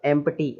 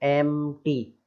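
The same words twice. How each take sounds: First: "एम्प्टी" with audible P; wrong P sounded. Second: "एम्प्टी" as slow em-tee; correct silent P. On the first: Teacher showing what we won't say, "एम्प्टी" with P sounded. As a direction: say "एम्प्टी", pronouncing P before T. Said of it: "नहीं बोलेंगे". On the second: Teacher giving the only right way, "एम्प्टी" with silent P. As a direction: say "एम्प्टी" split after M, no P. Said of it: "नहीं बोलेंगे, केवल". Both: Shown as a demonstration.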